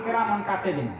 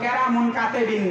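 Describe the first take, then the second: First: It is said as Kiraman Katibin. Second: It is said as Keramun Katebin. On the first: The speaker calls it right. "আসলে ফেরেশতাদের নাম কিরামান কাতিবিন" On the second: The speaker calls it wrong. "ফেরেশতাদের নাম মূলত কেরামুন কাতেবিন না"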